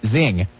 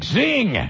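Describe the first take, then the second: First: Lower, understated imitated sitcom quip; Tobias. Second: Higher, stretched-out zing; cheesy radio zing. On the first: Host quoting Tobias on Arrested Development, understated zing. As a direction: drop the word in lightly. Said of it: "Tobias on Arrested Development saying". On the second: Retold or imitated. Host mimicking his own on-air catchphrase, high cheesy zing. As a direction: sing it out like a station sweeper. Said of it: "morphed into one thing of me going".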